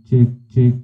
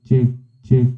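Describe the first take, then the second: The two takes are said the same way.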